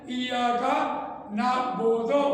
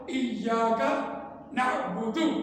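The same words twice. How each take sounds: First: ایاک نعبدو read with Urdu vowels, the last vowel flat; the mistaken Urdu way of reciting نعبدو; نعبدو with an Urdu o, not a rounded Arabic u; wrong Urdu-style reading. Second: ایاک نعبدو with a rounded Arabic u on نعبدو; the correct tajweed نعبدو ending in a clear u; correct Arabic reading. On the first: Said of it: "تو یہ غلط ہوگا". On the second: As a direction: recite نعبدو properly, lips rounded for u. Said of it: "تو یہ آواز اس کی درست ہوگی". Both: Shown as a demonstration.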